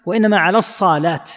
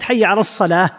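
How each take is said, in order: First: "الصلاة" said "as-saalaat"; stretched saad. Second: Said in the usual way. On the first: Shown as a demonstration. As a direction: lengthen the saad's vowel in "الصلاة" and end on t. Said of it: "فإذا مد الصاد". (مدّ صاد «الصلاة»: الصالات) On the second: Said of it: "فكأن ليست".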